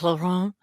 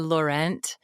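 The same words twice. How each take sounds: First: The name is said with a French pronunciation. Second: The name is said with a plain American pronunciation. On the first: "the fancy French way" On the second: "like my most people, I kind of say"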